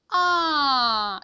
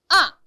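First: The falling syllable is drawn out slowly. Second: The falling syllable is short and clipped. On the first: The speaker calls it wrong. "너무 느려뜨리면 안 되고요" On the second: The speaker calls it right. "굉장히 짧게 쳐야 됩니다"

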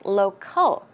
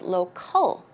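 No difference in how they are said.

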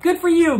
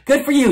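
First: It is said warmly and happily. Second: It is said bitterly and spitefully.

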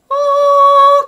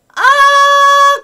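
First: The sound resonates only in the nose. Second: The sound resonates only in the mouth. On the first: "これ鼻だけ" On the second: "これ口だけ"

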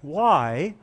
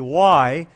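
First: It is asked in a polite, respectful tone. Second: It is asked in a defiant, challenging tone. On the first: The asker sincerely wants to understand. The speaker calls it right. "if you ask your parents with respect" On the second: The asker is challenging the instruction. The speaker calls it wrong. "you probably better not ask why with that tone of voice"

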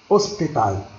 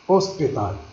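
No difference in how they are said.

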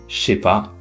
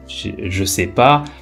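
First: The phrase is reduced as far as possible. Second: The ne is dropped, other words are kept.

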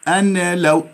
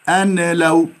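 No difference in how they are said.

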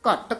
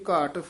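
First: The word is said tightly and with force. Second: The word is said softly and lightly. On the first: "ਦੂਜਾ ਘਟ ਜਿਹੜਾ ਹੈ ਉਹ ਕੱਸ ਕੇ ਉਚਾਰਨ ਕਰਨਾ" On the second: "ਪਹਿਲਾ ਘਟ ਜਿਹੜਾ ਹੈ ਪੋਲਾ ਬੋਲਣਾ"

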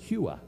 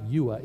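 First: The word starts with an H sound. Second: The word starts without an H sound. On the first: The speaker calls it right. "which in the Greek puts an H sound" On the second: The speaker calls it wrong. "So it's not Yua"

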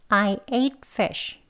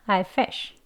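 First: The sentence is spoken slowly and fully. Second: The sentence is spoken fast and reduced. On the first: "천천히 해볼게요" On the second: "또는 더 빨리 발음할 때는요"

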